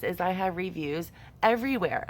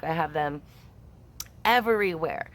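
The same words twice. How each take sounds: First: Said in the usual way. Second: "everywhere" as the punchline; stress on everywhere. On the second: Shown as a demonstration. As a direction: land hard on "everywhere" after a beat.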